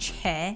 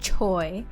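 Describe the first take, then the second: First: The name ends in an 'eh' vowel. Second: The name ends in an 'oy' vowel. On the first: The speaker calls it right. "I'm going to keep saying Che" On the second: The speaker calls it wrong. "not Choi, because that's not how it's pronounced"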